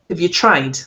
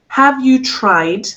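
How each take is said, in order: First: The phrase is said quickly. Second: The phrase is said slowly. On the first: "If we say it quickly" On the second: "here's me saying it slowly"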